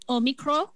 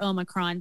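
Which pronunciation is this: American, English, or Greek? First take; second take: Greek; American. First: It is said the Greek way, with no final n. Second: It is said with an American pronunciation. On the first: "apparently the Greeks call it Omicron. With no N" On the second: "Americans say Omicron"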